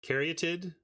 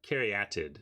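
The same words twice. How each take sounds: First: The vowel is said as a short 'uh'. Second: The vowel is said as an open 'ah'.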